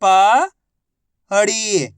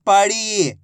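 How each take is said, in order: First: पड़ी split as प, long pause, ड़ी; syllable by syllable. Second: पड़ी joined, ending on held ड़ी; blended word. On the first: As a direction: sound out पड़ी slowly, प rising, ड़ी falling. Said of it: "एक अक्षर की पहचान करो, उनका उच्चारण करो". (पड़ी को अक्षर-अक्षर अलग बोलें) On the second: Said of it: "आपस में मिला के पढ़ दो". (पड़ी को मिलाकर बोलें) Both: Shown as a demonstration.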